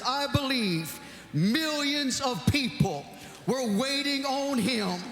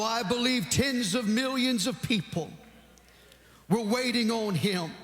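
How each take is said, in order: First: It is said imitating the late preacher's manner. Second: It is said in the speaker's own manner.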